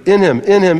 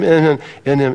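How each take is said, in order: First: "in him, in him" punched higher and louder; emphatic in him. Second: Said in the usual way. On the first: Real, not acted. Preacher pressing "in him" on the congregation, emphatic. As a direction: drive home "in him, in him" hard. Stressing the phrase.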